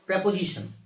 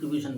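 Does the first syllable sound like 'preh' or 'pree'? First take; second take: preh; pree. First: The first syllable has an 'eh' vowel. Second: The first syllable has an 'ee' vowel. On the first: "এর actual actual যে pronunciation সেটা হচ্ছে" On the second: "আমরা সবাই প্রিপোজিশন প্রিপোজিশন বলি"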